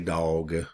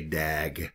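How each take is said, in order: First: It is said in a Southern US accent. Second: It is said in a Boston accent.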